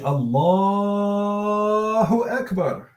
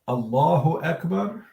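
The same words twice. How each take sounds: First: The vowel after the L is stretched out. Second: The vowel after the L is short. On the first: "stretch it out and say" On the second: "it's permissible to say"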